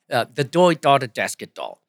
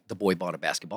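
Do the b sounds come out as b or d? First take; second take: d; b. First: The b sounds are replaced with d sounds. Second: The b sounds are said as normal b sounds. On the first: "substitute it for a D" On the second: "that doesn't sound like the boy bought a basketball"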